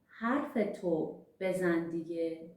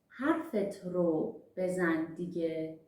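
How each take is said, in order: First: The object marker is merged into a short 'o'. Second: The object marker is said as a separate 'ro'.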